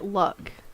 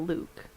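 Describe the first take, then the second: First: The name has a short vowel, like 'luck'. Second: The name has a long oo vowel, like 'Luke'. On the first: "I pronounce it Luck" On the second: "I've also seen people say Luke"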